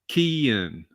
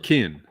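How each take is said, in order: First: The vowel is stretched into two parts. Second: The vowel is short and single.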